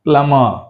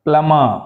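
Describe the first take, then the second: Both takes have the same delivery.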